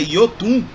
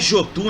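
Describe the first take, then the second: First: The name begins with a Y sound. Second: The name begins with a J sound. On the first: The speaker calls it right. "é Yotun" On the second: The speaker calls it wrong. "Não é Jotun"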